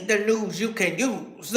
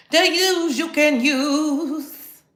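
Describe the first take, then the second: First: Low, slow announcer tagline; lowered slow news jingle line; announcer slogan. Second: Drawn-out, very slow news tagline; grand slow TV-news slogan; slow announcer slogan. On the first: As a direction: sell it like a TV slogan. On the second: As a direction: stretch every word like a jingle. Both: Acted. Announcing segment.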